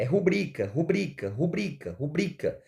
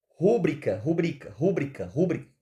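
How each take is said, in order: First: Rubrica repeated with the stress on the second syllable, ru-BRI-ca; correct stress rubrica. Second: Rúbrica repeated with the stress on the first syllable, RÚ-bri-ca; rúbrica with a heavy first syllable, RÚ-brica; wrong stress rúbrica. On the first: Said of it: "Vejam que a sílaba mais forte está aqui". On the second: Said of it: "Não é rúbrica, tá? Como a gente fala". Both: Shown as a demonstration.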